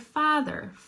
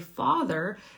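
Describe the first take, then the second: First: The 'ah' vowel is higher. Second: The 'ah' vowel is lower. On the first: This is how some other speakers say it. "they might say father ... It's like a higher ah sound" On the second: This is the speaker's own way of saying it. "I say father"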